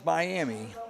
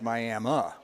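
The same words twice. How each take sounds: First: The name is said the way it is spelled. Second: The name is said in the local way. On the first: The speaker calls it wrong. "It's spelled Miami" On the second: The speaker calls it right. "it's said out there as Miami"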